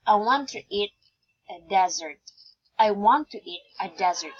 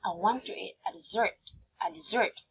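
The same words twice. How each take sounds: First: "dessert" stressed on the first syllable, like desert; wrong stress. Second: "dessert" stressed on the second syllable, de-ZERT; softer take, "dessert" with weight on the final syllable; correct stress. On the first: Teacher showing a wrong stress, DEZ-ert for "dessert". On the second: Teacher giving the correct one, de-ZERT for "dessert". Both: Shown as a demonstration. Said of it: "The correct one is".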